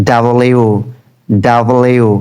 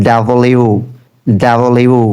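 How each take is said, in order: The two takes are said the same way.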